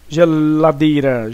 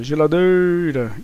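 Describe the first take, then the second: First: Slow "Geladeira" with a held l; stretched to find stress. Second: "geladeira" with a long, held "dei"; slow "geladeira", leaning on its third syllable; stress on DEI. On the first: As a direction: draw out "Geladeira", lingering before "dei". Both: Shown as a demonstration. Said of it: "Então o dei".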